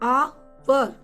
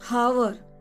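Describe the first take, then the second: First: The word begins with a vowel, h silent. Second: The word begins with a pronounced h sound. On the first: The speaker calls it right. "We will pronunciate it hour" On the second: The speaker calls it wrong. "We will never pronun- pronunciate it"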